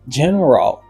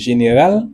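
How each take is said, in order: First: The word is pronounced the English way. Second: The word is pronounced the French way. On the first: The speaker calls it right. "Laisse ça me dit general" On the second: The speaker calls it wrong. "Si m'tap li en français m'tap dit général"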